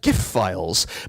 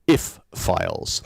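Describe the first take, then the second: First: The word starts with a hard G sound. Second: The word starts with no G sound. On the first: "hard G" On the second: "the letter G shouldn't be pronounced at all"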